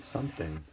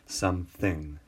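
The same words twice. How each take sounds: First: Said in the usual way. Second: SomeTHING, with weight on the second syllable; "some" lighter, THING stressed. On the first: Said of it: "what you stress in saying that word". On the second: Shown as a demonstration. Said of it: "the thing is what's stressed".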